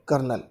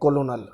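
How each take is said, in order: First: It is said in two syllables, like kernel. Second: It is said in three syllables, ko-lo-nel. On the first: The speaker calls it right. "ये spelling होती है कर्नल" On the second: The speaker calls it wrong. "Spelling पढ़ने में लग रही है कोलोनल, लेकिन actually में ये कोलोनल नहीं होती"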